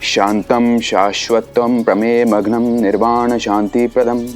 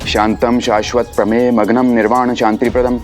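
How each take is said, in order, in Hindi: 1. श्लोक coffee तेज़ गति से पढ़ा जाता है। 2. श्लोक और तेज़ गति से पढ़ा जाता है। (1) "जल्दी पढ़ सकते हैं?" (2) "थोड़ा और जल्दी पढ़िए।"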